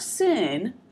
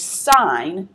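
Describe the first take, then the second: First: The vowel is short, like in 'pin'. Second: The vowel is long, like in 'line'. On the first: The speaker calls it wrong. "not sin" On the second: The speaker calls it right. "that is sine"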